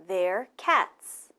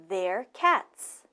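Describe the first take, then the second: Both takes have the same delivery.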